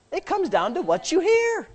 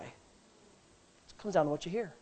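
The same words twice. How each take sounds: First: Higher ringing take. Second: Slow soft take. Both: Shown as a demonstration.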